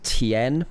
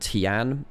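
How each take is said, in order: First: The word ends with an 'en' sound. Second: The word ends with an 'an' sound. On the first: The speaker calls it right. "you pronounce it Tien" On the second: The speaker calls it wrong. "rather than Tian"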